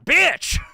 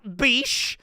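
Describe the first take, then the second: First: The name ends with a ch sound. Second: The name ends with an sh sound. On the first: The speaker calls it right. "That's how it's spelled and pronounced" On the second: The speaker calls it wrong. "Not Beesh"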